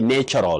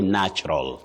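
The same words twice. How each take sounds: First: The first vowel is long, like 'nature'. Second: The first vowel is short, like 'natch'. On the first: The speaker calls it wrong. "you don't say natural" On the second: The speaker calls it right. "you say natural"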